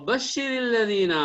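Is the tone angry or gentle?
gentle. It is said in a sweet, soft, gentle tone. It is truly good news for the believers. "चेहरे पर मुस्कुराहट, आवाज में मिठास, नरमाहट"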